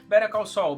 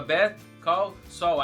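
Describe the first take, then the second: First: The title is pronounced smoothly and fluently. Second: The title is pronounced in an awkward, unnatural way. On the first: This is how the title is said after hearing it properly. The speaker calls it right. "hoje eu falo com uma, uma fluência" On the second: This is how the title used to be said before learning it. The speaker calls it wrong. "eu falava Better Call Saul, aí ficava uma coisa assim"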